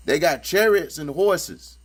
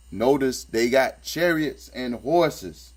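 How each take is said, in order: First: Slow and deliberate, leaning on "chariots"; insistent slow emphasis on "chariots"; stress on chariots. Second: Said in the usual way. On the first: Shown as a demonstration. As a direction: drive home "chariots", word by word.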